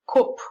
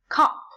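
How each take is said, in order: First: The vowel is said in a northern English way. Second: The vowel is said in a standard British way.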